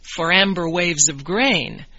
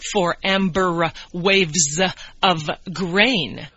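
First: The words flow together without pauses. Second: Each word is separated by a small pause. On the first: The speaker calls it right. "You would say" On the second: The speaker calls it wrong.

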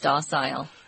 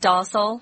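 First: It is said in a British accent. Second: It is said in an American accent. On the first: "if you go to England, it's docile" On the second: "In America, it is docile"

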